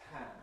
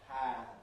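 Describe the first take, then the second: First: The word is said at normal speed. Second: The word is said slowly and drawn out.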